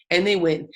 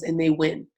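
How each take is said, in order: First: "they win" repeated, the second "And they win" louder with a falling close; stress on they win. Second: Said in the usual way. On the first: Shown as a demonstration. Speaker warning her team, second "And they win" louder. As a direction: hammer home "they win" the second time, louder and final.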